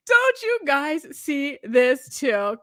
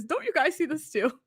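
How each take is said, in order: First: "Don't you guys see this too?" stretched out very slowly; slow, drawn-out plea. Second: Said in the usual way. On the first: Shown as a demonstration. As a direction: drag every word of "Don't you guys see this too?" out to press the point.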